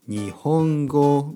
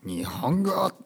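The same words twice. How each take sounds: First: The word is said in the ordinary standard way. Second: The word is said in an odd, quirky way. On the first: The speaker calls it right. "ほとんどの先生が言うように日本語みたいなね言い方でもいいですよ" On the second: The speaker calls it wrong. "こんな言い方しなくて大丈夫ですよ"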